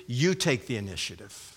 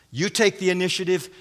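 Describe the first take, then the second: First: Low, softened echo; addressing the second. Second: Brisk instruction, voice held up; addressing the first. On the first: Preacher voicing Paul to the second woman, low and soft. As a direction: drop down for the other party. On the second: Preacher voicing Paul to the first woman, brisk instruction. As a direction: hand it to one party at normal volume. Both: Acted. Addressing each of two women in turn.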